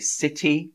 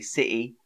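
First: The middle T is clearly pronounced. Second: The middle T is dropped to a glottal catch. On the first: The speaker calls it right. "So I would always say city" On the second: The speaker calls it wrong. "I wouldn't say city"

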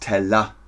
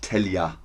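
First: The middle consonant is a clear L sound. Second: The middle consonant is a Y-like sound. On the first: The speaker calls it right. "Es ist Teller" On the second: The speaker calls it wrong. "und nicht Telja"

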